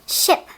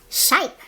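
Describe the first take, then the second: First: The vowel is a short I sound. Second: The vowel is a long I sound. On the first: The speaker calls it right. "it's a short I sound" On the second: The speaker calls it wrong. "It's not shipe. It's not a long I"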